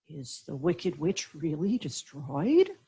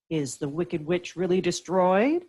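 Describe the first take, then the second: First: The voice trembles a little. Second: The voice is steady and plain.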